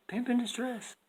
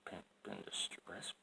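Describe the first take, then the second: First: High, loud hammed-up cry; mock distress call. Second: Whispered repeat. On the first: Loud first take. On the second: Pretend. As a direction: breathe it out softly as an aside.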